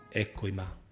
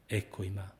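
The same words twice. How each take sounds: The two takes are said the same way.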